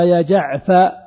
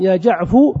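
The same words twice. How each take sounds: First: "جعفر" said as "jaʿfa", rising on the open "a"; r dropped. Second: "جعفو" said loudly as "jaʿfu", rising; damma on ف. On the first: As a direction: end "جعفر" at "fa" with no r. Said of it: "يعرف أنك حذفت الراء". (نطق "جعفر" بفتح الفاء وحذف الراء) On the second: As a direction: end "جعفو" on a clear "fu". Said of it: "الفاء مضمومة". (نطق "جعفو" بضم الفاء) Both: Shown as a demonstration.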